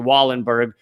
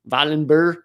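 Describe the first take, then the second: First: The name is said with an American pronunciation. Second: The name is said with a Swedish pronunciation. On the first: "the Americanized way of pronouncing it would be" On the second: "I know from someone Swedish that it's like"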